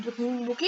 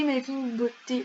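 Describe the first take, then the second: First: "bokeh" said as bo-keh, with a rise on the last syllable; a real slip on "clinique bokeh"; mispronounced slip. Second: "beauté" said properly as bo-té; corrected word. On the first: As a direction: trip over the word, saying "bokeh" instead of beauté. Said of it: "moi, je sais pas parler". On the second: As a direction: correct yourself, saying "beauté" clearly. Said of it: "Ce n'est pas de clinique bokeh". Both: Real, not acted.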